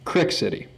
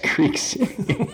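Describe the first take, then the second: First: It is said the regional way. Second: It is said the standard way.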